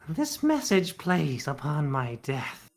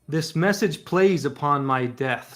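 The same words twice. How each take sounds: First: It is said in a put-on character voice. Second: It is said in the speaker's ordinary voice.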